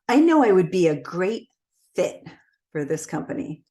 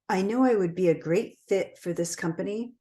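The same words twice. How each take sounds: First: It sounds confident, slowing down on the word fit. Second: It is even-paced and flat, with no highs or lows. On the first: The speaker seems convinced of being a good fit. The speaker calls it right. "a little bit more of a confident tone and use pacing to my advantage" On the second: The speaker does not seem to truly believe it. The speaker calls it wrong. "I stayed at a very similar pace throughout, and so there wasn't any high or low"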